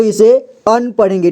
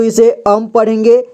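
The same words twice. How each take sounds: First: अन with an n ending; अं read as अन. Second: अम with a closed-lip m ending; अं read as अम. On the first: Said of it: "मुख्य रूप से दो तरह से". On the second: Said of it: "दो या तीन तरह से उच्चारण किया जाता है". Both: Shown as a demonstration.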